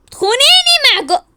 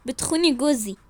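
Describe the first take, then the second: First: Loud, high-pitched accusation; outraged cry. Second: Said in the usual way. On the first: Acted. Wife accuses rival of taking her husband, shrieking. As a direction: shriek it in disbelief.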